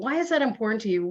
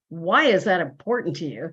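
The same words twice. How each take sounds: First: The question sounds open and curious. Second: The question sounds accusing and challenging. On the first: The speaker genuinely wants to understand. The speaker calls it right. "Really also brings out more information" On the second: The listener is being challenged or judged. The speaker calls it wrong. "Could come across as like, you know, what are you?"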